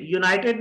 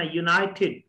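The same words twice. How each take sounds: First: यूनाइटेड run together with a hard T; wrong pronunciation. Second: यूनाइटेड with a breath puff starting TED; aspirated correct pronunciation. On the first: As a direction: say यूनाइटेड the local way, no puff on T. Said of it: "यूनाइटेड नहीं कहना". (यूनाइटेड देसी तरीके से, सख़्त ट) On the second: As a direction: release the T of यूनाइटेड as an airy ठ. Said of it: "जिसके शुरू में टी आया तो टेड". (यूनाइटेड में ट पर साँस, ठेड) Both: Shown as a demonstration.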